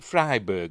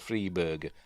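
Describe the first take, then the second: First: The first syllable does not sound like 'free'. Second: The first syllable sounds like the word 'free'. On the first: "is it Freiberger or" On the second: "I say Freeberger because it sounds like he's giving out food"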